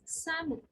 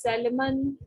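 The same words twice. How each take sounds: First: The L sound is silent. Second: The L sound is pronounced. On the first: The speaker calls it right. "L is silent, so it's salmon" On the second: The speaker calls it wrong. "people pronounce it as Salmon"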